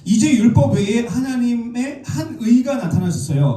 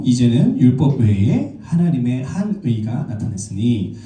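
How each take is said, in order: First: Raised, high-pitched proclamation of "율법 외에 하나님의 한 의"; "한 의" held up high, preacher explaining; emphatic restatement. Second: Slow, measured Bible reading; deliberate recitation of a verse; scripture reading. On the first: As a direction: lift "하나님의 한 의" high as the key point. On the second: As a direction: read the verse out slowly and formally. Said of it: "제가 읽어드릴게요". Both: Real, not acted.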